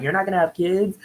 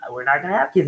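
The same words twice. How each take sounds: First: Mildly incredulous echo, pitched higher. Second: Said in the usual way. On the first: Retold or imitated. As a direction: question it back in mock disbelief. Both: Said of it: "they're just incredulous".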